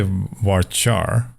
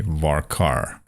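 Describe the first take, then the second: First: "varchar" with ch as in chart. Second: "varkar" with a hard k, var-car; American varchar. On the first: Telling viewers how they say it, "varchar" slowly with ch. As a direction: slowly say "varchar" as var-char. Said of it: "And I say varchar". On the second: Showing viewers what Americans say, "varkar" with a hard k. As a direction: say "varkar" with the second half like car. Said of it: "most Americans will say varkar". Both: Shown as a demonstration.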